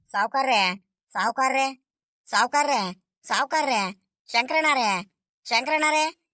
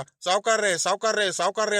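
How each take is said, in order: First: Repeated calling out. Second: Mocking the calls. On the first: Acted. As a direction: call "ಸಾವ್ಕಾರ್ರೆ" over and over, a little raised. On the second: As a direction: mimic the repeated "ಸಾವ್ಕಾರ್ರೆ" calls, lightly exaggerated. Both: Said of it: "ನೂರ್ ಸಲಿ ಕರಿತೀಯಲ್ಲ".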